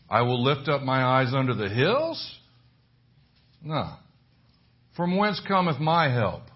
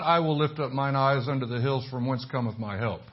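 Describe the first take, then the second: First: It is read as separate questions. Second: It is read as one continuous statement.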